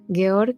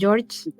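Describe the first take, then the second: First: The name is said with a German pronunciation. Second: The name is said with an English pronunciation. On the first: This is how the other person said it. The speaker calls it right. "ya sé que es alemán, es que has dicho Georg" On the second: This is the speaker's own habit. The speaker calls it wrong. "yo tengo la mala costumbre de pronunciar los nombres en inglés"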